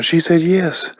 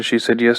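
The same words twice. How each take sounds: First: Higher-pitched, thrilled announcement; excited. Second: Said in the usual way. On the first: Retold or imitated. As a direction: imitate a friend running over with big news. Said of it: "runs over excitedly going".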